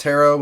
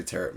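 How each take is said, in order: First: "tarot" with an open OH ending; correct silent T. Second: "tarot" with a final T heard; casual sounded T. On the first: Telling co-host the proper way, "tarot" with silent T. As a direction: say "tarot" as TARR-oh, no final T. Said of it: "I think it's pronounced tarot". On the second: Suggesting the less douchey way, "tarot" with sounded T. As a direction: say "tarot" as TARR-ut. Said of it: "we can just say tarot". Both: Shown as a demonstration.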